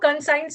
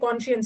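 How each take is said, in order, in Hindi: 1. बीच का हिस्सा 'science' की तरह, 's' से बोला जाता है। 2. बीच का हिस्सा 'sh' से बोला जाता है, 'shuns' की तरह। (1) "इसको कंसाइंस मत पढ़ना" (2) "ये कॉन्शियंस है"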